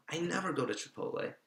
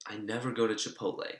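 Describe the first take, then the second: First: "never" said higher, stretched; stress on never. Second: Said in the usual way. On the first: Real, not acted. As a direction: lean hard on "never". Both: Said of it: "repeated with emphasis".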